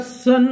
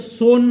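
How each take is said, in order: First: The vowel is a short 'uh' sound. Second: The vowel is an 'oh' sound. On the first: The speaker calls it right. "या तिघही शब्दांमध्ये ओ या स्वराचा उच्चार अ होत आहे" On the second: The speaker calls it wrong. "असं सोन म्हणून वाचू नका"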